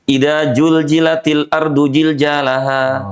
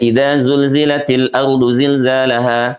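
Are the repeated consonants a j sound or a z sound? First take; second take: j sound; z sound. First: The consonants are said with a j sound. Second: The consonants are said with a z sound.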